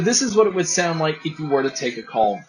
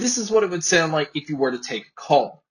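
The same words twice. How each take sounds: First: The voice is heard over background crowd noise. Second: The voice is heard without background crowd noise. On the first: "here is the mic test with a crowd noise being played" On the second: "here is a mic test using the earphones"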